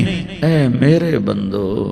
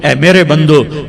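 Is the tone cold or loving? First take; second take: loving; cold. First: It is said in a warm, tender tone. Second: It is said in a cold, plain tone. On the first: The speaker calls it right. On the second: The speaker calls it wrong.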